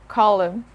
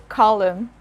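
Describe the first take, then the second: The two takes are said the same way.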